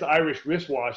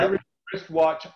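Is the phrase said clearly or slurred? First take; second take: slurred; clear. First: It is rushed and the sounds are slurred. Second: It is controlled and every sound is clear. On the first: The speaker calls it wrong. "if I do Irish wristwatch too quickly" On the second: The speaker calls it right. "About as fast as I can go"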